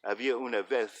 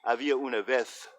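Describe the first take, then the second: First: It is spoken with a European Spanish pronunciation. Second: The same.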